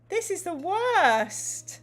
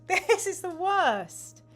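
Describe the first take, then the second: First: High, slow, hammed-up wail; mock despair. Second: High, slow wail broken by a laugh; laughing mock despair. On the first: Host groaning at the gamebook's forced fight, in mock despair. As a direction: moan it out in theatrical dismay. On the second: Host repeating the complaint through laughter.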